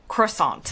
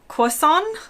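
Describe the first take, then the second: First: It is said with an American pronunciation. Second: It is said with a French-like British pronunciation. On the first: "In the U S, I say croissant. Emphasis on the aunt" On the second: "in the U K it sounds much more French"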